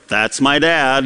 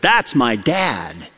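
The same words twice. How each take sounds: First: It is said reluctantly, with embarrassment. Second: It is said eagerly and openly, like a child.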